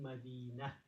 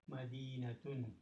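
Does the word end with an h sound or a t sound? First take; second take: h sound; t sound. First: The word ends with an h sound, madinah. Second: The word ends with a t sound, madinatun. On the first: The speaker stops after the word. "But if you stop, it would be" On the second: The speaker continues without stopping. "if you did a tanween, then you should read it as madinatun"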